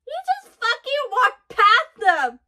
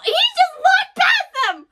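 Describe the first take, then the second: First: Slow, higher and louder, hitting each word; emphatic amazed repeat. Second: Slow, very high and loud disbelief; stunned excited shout. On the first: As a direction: spell it out in hyped disbelief. Repeats reaction, more emphatic. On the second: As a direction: stretch it out, shocked and thrilled. Reacting to Luffy ignoring enemies. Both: Real, not acted.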